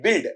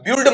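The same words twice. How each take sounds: First: The vowel is a plain 'i' sound. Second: The vowel is not a plain 'i' sound. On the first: The speaker calls it right. "ऐसा बोला जाएगा, ई sound" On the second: The speaker calls it wrong. "इसका उच्चारण बेटा बिल्ड मत करना"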